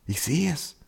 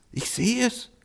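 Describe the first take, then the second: First: Much softer, higher hushed murmur; murmuring donkey. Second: Much softer and far higher, awed murmur; murmuring donkey, rising. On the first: Donkey murmurs to the ox on seeing the child, soft and hushed. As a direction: murmur it in awe. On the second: Donkey repeats to the ox in awe, soft and very high. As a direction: let the awe lift the voice up high. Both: A narrator's reading. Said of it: "raunte der Esel".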